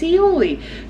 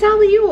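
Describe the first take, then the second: First: The word is said ending in an 'ee' sound. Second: The word is said ending in an 'ole' sound. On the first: The speaker calls it right. "Mom, it's aioli" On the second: The speaker calls it wrong. "you have me saying it wrong on the internet"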